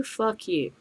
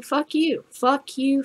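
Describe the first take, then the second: First: Softer, dropped-voice dismissal; quiet fuck you. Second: Higher, mocking kiss-off; defiant fuck you. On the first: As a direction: let it fall quietly with scorn. Ranting defiance, dropped low. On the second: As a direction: toss it off high and scornful. Ranting defiance at prohibitionists. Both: Real, not acted.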